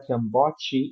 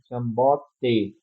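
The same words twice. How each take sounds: First: The final t is softened into a 'ch' sound. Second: The final t is a plain, crisp t. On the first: The speaker calls it wrong. "não é Kiambote, não tem esse fricativo no final" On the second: The speaker calls it right. "é Kiambote"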